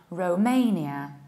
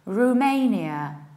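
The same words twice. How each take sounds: First: The first vowel is a rounded 'oh' sound. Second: The first vowel is an 'oo' sound. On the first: "Ro, rounding O" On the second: "saying Ru, like Rudy or Rufus"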